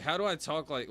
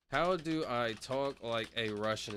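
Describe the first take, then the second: First: Said in the usual way. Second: Slow, careful attempt at a Russian accent. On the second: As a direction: try on a Russian accent, word by word. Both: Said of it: "talk like you're from Russia".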